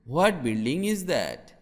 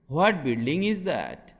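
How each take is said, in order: Both takes have the same delivery.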